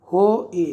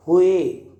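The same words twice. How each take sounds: First: हो ए split into "ho" and "e"; sounding out. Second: Said in the usual way. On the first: Shown as a demonstration. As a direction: say हो ए as two separate syllables with a gap. Teacher sounds out word in parts. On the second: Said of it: "पढ़ेंगे उसे".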